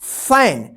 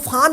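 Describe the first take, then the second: First: The vowel is a front ae sound. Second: The vowel is a long open aa sound. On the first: The speaker calls it right. "क्या पढ़ेंगे फैन" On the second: The speaker calls it wrong. "इसको फान मत पढ़िएगा"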